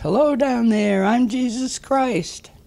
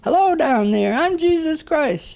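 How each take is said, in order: First: It is called out moderately loud. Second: It is yelled as loud as possible.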